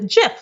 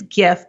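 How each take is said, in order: First: The word begins with a J sound. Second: The word begins with a hard G sound. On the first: "pronounces it Jif, like the peanut butter" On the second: "it is GIF"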